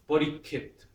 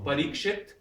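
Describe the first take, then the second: First: The middle has a single k sound. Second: The middle has a ksh consonant cluster.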